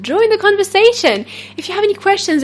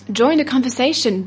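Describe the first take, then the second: First: Higher, brighter invite. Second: Said in the usual way. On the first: Shown as a demonstration. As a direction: Join the conversation said higher and louder.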